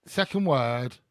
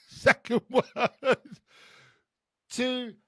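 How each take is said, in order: First: Said in the usual way. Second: Higher, louder, drawn out slowly; sing-song announcement. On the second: Acted. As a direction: stretch it out like a game-show host. Charades clue, sung-out announcement.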